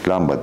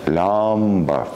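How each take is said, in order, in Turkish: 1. Sözcüğün hiçbir hecesi uzatılmaz. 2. Sözcüğün bir hecesi uzun uzatılarak söylenir. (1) "Hiçbir hece uzamıyor" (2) "lamba demiyorsak"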